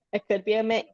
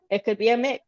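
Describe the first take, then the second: No difference in how they are said.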